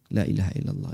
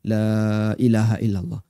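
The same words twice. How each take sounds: First: The vowel in 'la' is short. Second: The vowel in 'la' is drawn out long. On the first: It is said quickly, as in everyday remembrance. "Cuman pendek aja" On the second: It follows the full lengthening rule. "Kita nggak baca la ilaha illallah"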